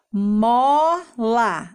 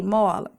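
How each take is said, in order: First: "Mola" stretched as mooo... la; two long beats in "Mola"; syllable by syllable. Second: Said in the usual way. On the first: Shown as a demonstration. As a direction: piece "Mola" together syllable by syllable. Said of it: "vamos juntar e formar a palavra". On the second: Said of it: "Aí a criança escreve aqui".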